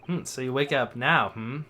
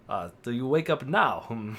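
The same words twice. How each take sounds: First: Said in the usual way. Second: Badly faked Russian accent; shaky Russian accent. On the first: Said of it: "Oh, he's Russian". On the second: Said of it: "I can't do a Russian accent".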